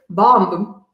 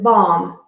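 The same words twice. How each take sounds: First: A B sound is heard at the end. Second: No B sound is heard at the end. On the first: The speaker calls it wrong. "Even though there is a B at the end of the word, we don't pronounce it bomb" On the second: The speaker calls it right. "We pronounce it bomb"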